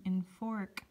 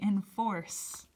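First: The word ends with a k sound. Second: The word ends with an s sound. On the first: The speaker calls it wrong. "it's not saying enfork" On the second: The speaker calls it right. "Second sound of C, it's saying enforce"

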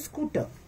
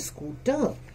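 First: The first vowel is short. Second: The first vowel is long. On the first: The speaker calls it wrong. "We don't say scooter" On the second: The speaker calls it right. "That's a slightly longer sound"

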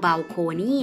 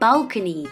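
First: The stress is on a later syllable. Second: The stress is on the first syllable. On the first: The speaker calls it wrong. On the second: The speaker calls it right.

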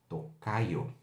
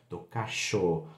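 First: The middle consonant is a 'y' sound. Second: The middle consonant is a 'sh' sound.

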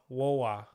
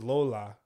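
First: The word begins with a W sound. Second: The word begins with a clear L sound. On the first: The speaker calls it wrong. "But I had a lisp, so I said Wola" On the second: The speaker calls it right. "Like grandmother is Lola"

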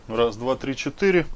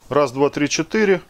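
First: The speaker talks from the far end of the room. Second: The speaker talks from right beside the desk. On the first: "Сейчас вот ухожу в другой конец комнаты" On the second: "И запись сейчас идет на петличку Kymofan"

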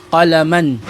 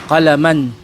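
No difference in how they are said.

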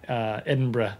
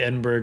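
First: It is said closer to the local pronunciation. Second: It is said in a loose American pronunciation. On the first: The speaker calls it right. "Edinburgh is a little closer" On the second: The speaker calls it wrong. "we say Edinburgh because we're lazy Americans"

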